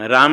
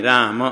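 First: राम as one syllable, raam; final vowel dropped. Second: राम as raa-ma, two syllables; final vowel sounded. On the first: Teacher shows the wrong way, राम ending on m. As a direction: end राम on a closed m, no vowel after. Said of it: "राम नहीं". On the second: Teacher corrects students, राम with final अ sounded. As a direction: voice a short अ after the म in राम. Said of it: "म में अ है". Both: Shown as a demonstration.

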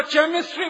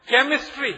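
First: "चेमिस्ट्री" with ch as in chair; deliberately mispronounced CHEMISTRY. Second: "केमिस्ट्री" opening on a k sound; usual CHEMISTRY pronunciation. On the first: Speaker ridicules English spelling to audience, "चेमिस्ट्री" with ch. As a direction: hit "चेमिस्ट्री" with ch instead of k. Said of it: "बोलना चाहिए". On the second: Speaker gives audience a spelling example, "केमिस्ट्री" with k sound. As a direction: announce "केमिस्ट्री" with a hard k start. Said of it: "केमिस्ट्री बोलते हैं ना". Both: Shown as a demonstration.

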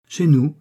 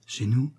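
First: "Chez nous" confirmed, high and loud on Chez; emphatic CHEZ NOUS. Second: "Chez nous" as a question, rising on nous. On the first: Husband reassures rescued wife, emphatic confirmation on "Chez nous". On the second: Wife asks husband about staying with him, questioning rise on "Chez nous". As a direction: lift the end of "Chez nous" in wonder. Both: A narrator's reading.

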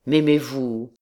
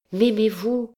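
First: Man's question at usual pitch; captain's voice. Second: Put-on high, girlish rising question; young woman's voice. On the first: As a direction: ask it squarely, without girlish lift. Captain turns the question back. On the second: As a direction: ask it high, as an eager girl. Girl asks the captain for love. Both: A narrator's reading.

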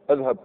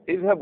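First: اذهب opening on "a": adhhab; fatha on hamza. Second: اذهب opening on "i": idhhab; kasra on hamza. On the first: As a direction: start اذهب with "a". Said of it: "ما كاينش فتحه". (اذهب بفتح الهمزة) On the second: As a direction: start اذهب with "i". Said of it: "تكسرها". (اذهب بكسر الهمزة) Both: Shown as a demonstration.

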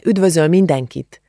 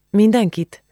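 First: Said in the usual way. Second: "Mindenkit?" asked high and doubtful; surprised echo. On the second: A narrator's reading. Julcsi questions Ági about Igor's greeting, surprised.

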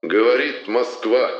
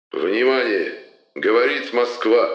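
First: Slow solemn stress on Говорит; Говорит drawn out grandly, Москва falling; Levitan announcer voice. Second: Booming solemn state announcer; Levitan announcer voice. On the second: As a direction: proclaim it like wartime radio. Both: Acted. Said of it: "глубокий торжественный голос Юрия Борисовича Левитана".

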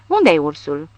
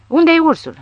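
First: Whinnying shout. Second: High neighing shout on Unde-i ursul; whinny Unde-i ursul like a horse. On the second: Barcelona neighs as he shoots up the room, whinnying. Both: A narrator's reading. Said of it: "necheza Barcelona".

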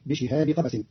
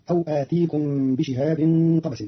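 First: بشهاب said "bi-shihabi", without final n; بشهاب linked to قبس, no nasal ending; no tanween. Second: Said in the usual way. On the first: Shown as a demonstration. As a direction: run بشهاب into قبس with a short i. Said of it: "بدون تنوين". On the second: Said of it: "قرأ قالون كلمة بشهاب".

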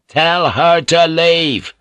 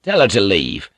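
First: Louder, slow, every word hammered; ringing command. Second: Curt, firm order; a cold, clipped command; firm demand. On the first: Blackthorn repeating his demand to Mariko, a slow booming order. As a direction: let it ring round the house. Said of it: "Blackthorn's words ricocheted around the veranda". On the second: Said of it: "Blackthorn's words ricocheted". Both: Acted.

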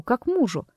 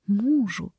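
First: Said in the usual way. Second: «Мужу» тише, медленно, с понимающим спадом; повторить «Мужу» про себя, осмысляя; задумчивый повтор. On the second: A narrator's reading. («Мужу» тихо и задумчиво)

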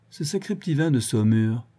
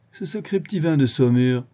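First: "Ce sacré petit vin de Saumur" said drowsily, "sacré" leaned on, a hint of tipsiness; drowsy tipsy excuse. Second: "Ce sacré petit vin de Saumur" tossed back teasingly, "vin" leaned on; mocking teasing. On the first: Vorski to Otto, sleepily blaming the wine. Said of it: "la marche mal assurée". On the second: Vorski mocks Otto for being drunk, teasing. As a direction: tease him that the wine got to him, stress on "vin". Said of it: "Vorski se mit à rire".

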